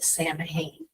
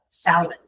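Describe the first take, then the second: First: It is pronounced the way it is spelled. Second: It is pronounced the Gaelic way. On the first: The speaker calls it wrong. "mispronounce it" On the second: The speaker calls it right. "in Gaelic, it is pronounced"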